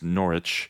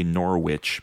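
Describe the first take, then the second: First: The middle w sound is left silent. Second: The middle w sound is pronounced. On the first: This is the correct local pronunciation. The speaker calls it right. "that's with a silent W" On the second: This is how Americans would say it. The speaker calls it wrong. "What Americans would say Norwich"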